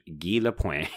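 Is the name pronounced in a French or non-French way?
French. The name is said in a French way. This is how a French-Canadian would say it. The speaker calls it right. "if he was French-Canadian, it would be Guy Lapointe"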